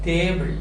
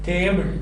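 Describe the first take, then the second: The two takes are said the same way.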